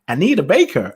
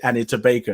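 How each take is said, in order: First: The name is said in an American accent. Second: The name is said in a non-American accent.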